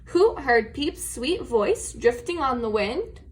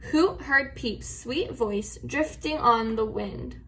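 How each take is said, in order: First: It ends with a rising question tune. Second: It ends with a falling statement tune.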